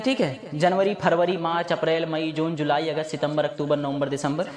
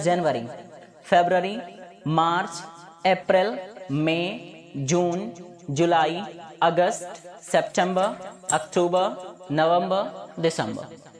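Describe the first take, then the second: First: जनवरी said jan-va-ri, फरवरी phar-va-ri, Hindi style; Hindi-style month names, फरवरी with ph and v; Hindi pronunciation of months. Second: फरवरी said febrəri, सितंबर sep-tem-bə; English month names, फरवरी as february; English pronunciation of months. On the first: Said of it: "ये सब हिंदी की pronunciation है". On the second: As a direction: months read the English way, अप्रैल as eprel. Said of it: "लेकिन English में क्या कहते हैं". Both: Shown as a demonstration.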